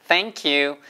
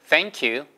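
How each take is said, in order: Both takes have the same delivery.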